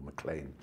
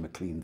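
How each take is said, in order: First: MacLean said as "muh-CLAIN"; alternative pronunciation. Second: Said in the usual way. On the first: Shown as a demonstration. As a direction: say MacLean to rhyme with "plain". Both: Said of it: "however he pronounced himself".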